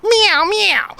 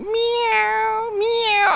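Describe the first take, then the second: First: Quick high cat meow. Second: High, drawn-out cat meow. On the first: Man mimicking a cat that tries to bark, loud high meow. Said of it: "he's like". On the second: Man mimicking his cat asking for food, high drawn-out meow. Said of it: "He's like". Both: Retold or imitated.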